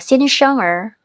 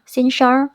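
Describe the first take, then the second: First: The word ends with an added 'er' sound. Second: The word ends without any added 'er' sound. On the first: The speaker calls it wrong. "di belakangnya ada kasih er" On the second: The speaker calls it right. "er-nya dihilangin juga nggak apa-apa"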